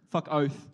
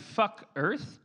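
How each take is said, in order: First: Australian "Fuck oath", falling at the end; correcting model pronunciation. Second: "oath" mispronounced as "earth", rising in question; botched imitation. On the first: Shown as a demonstration. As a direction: patiently model "oath" for the learner. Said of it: "Can I teach you a short one". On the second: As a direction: try the Aussie "fuck oath", land on "earth". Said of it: "Like, like oath?".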